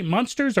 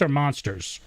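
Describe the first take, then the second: First: "monsters" rhyming with punsters; MUNSTERS pronunciation. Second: Said in the usual way. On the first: Shown as a demonstration. Host asking guest about her regional vowel, munsters pronunciation. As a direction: say "monsters" with an uh in the first syllable, like munsters. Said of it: "Sounded like monsters to me". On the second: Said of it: "Did you say monsters or monsters".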